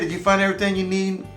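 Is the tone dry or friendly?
friendly. It is said in a warm, friendly tone.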